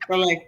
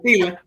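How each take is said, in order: First: The name is pronounced like 'Soleil'. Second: The name is pronounced like 'Sela'. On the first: This is the name as it actually was. "but it was Soleil" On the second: This is how an older relative said it. "My grandma kept saying Sela"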